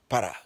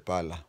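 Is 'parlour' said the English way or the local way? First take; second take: local; English. First: The word is said like 'para', ending in 'a'. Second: The word is said in standard English pronunciation. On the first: "him used to pronounce it as P A L A, para" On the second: "I'm pronouncing it the way the, the English say P A L O U R"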